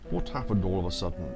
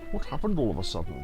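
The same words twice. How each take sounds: First: It is said in an ordinary, natural voice. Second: It is said in a put-on character voice.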